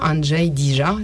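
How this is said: The name is said with a French pronunciation.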